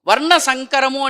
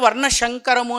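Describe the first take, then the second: First: The second word starts with a plain s sound. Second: The second word starts with an sh sound.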